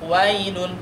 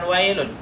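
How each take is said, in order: First: The diphthong glides softly toward the vowel. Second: The diphthong is cut off harshly and abruptly. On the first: The speaker calls it right. "Jadi bunyinya menjadi wailul wailun" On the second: The speaker calls it wrong. "bukan wailun"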